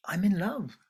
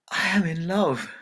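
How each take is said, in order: First: Whispered confession. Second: Raised, louder bright declaration; bold declaration. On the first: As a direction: breathe it as a secret. Daughter answers mother softly. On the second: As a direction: announce it proudly to her parents. Daughter declares love to parents. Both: Acted.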